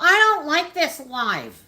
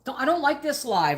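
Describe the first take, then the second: First: It is said in a whiny, complaining voice. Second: It is said in a plain, ordinary voice.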